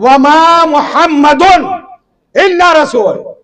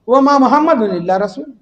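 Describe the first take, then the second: First: It is said in a firm, emphatic tone. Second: It is said in a soft, consoling tone. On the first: He is nothing but a messenger, with no other tie. The speaker calls it right. "अब मतलब बदल गया" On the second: He was a messenger who passed on like everyone. The speaker calls it wrong. "कैसी तसल्ली दे रहा है"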